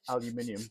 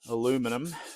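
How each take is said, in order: First: The word is said the British way. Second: The word is said the American way. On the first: "being British, we changed it" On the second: "as they say in, you guys stay in the States"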